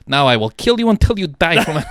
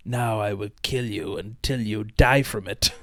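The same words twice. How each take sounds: First: Laughing through the villain line, louder; laughing quote. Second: Slow, menacing movie villain. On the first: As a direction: crack up while quoting it. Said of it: "and he's like". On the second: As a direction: drag out a cartoon baddie's threat. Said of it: "who is it that goes like". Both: Retold or imitated.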